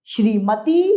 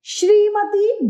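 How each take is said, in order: First: Said in the usual way. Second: श्रीमती whispered slowly, rising at the end; whispered wrong form. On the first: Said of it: "श्रीमती सही है". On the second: Shown as a demonstration. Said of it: "श्रीमती गलत है".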